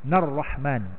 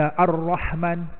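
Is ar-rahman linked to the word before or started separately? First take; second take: linked; separate. First: It is joined to the previous word's final n. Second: It starts separately with its own opening glottal catch. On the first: The speaker calls it right. "Dia kena sambung" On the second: The speaker calls it wrong. "Tak betul"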